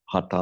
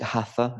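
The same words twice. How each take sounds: First: The middle sound is a plain 't' sound. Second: The middle sound is an English 'th' sound.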